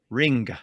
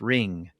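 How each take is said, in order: First: It ends with a distinct hard G sound. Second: It ends in ng with no G sound. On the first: This is how it was said in older English. "It was a very distinct g" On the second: This is how it is said today. "we don't really pronounce it with a very distinct G sound"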